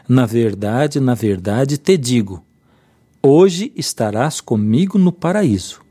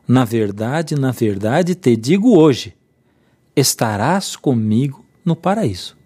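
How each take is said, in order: First: The pause comes before 'hoje'. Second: The pause comes after 'hoje'.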